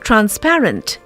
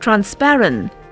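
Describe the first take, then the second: First: Every sound in the word is pronounced. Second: One sound in the word is left out. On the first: The speaker calls it right. "we should say" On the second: The speaker calls it wrong. "omission or a missing sound"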